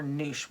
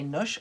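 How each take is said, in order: First: Second "noosh" with the long oo of moon; long-vowel "noosh". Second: First "noosh" with the short oo of push; short-vowel "noosh". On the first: Asking viewers which pronunciation, "noosh" with a long vowel. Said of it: "with those little dots over the U". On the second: Asking viewers which pronunciation, "noosh" with a short vowel. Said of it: "Would you say noosh or noosh". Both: Shown as a demonstration.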